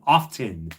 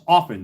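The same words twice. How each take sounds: First: The T sound is pronounced in the middle. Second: The T sound is silent in the middle. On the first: The speaker calls it wrong. "the idiots that pronounce the word often" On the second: The speaker calls it right. "The T is silent"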